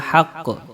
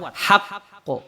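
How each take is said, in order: First: The q is released weakly, without a bounce. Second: The q is released strongly with a bounce. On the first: The speaker calls it wrong. "Enggak boleh dibaca" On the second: The speaker calls it right. "harus kuat"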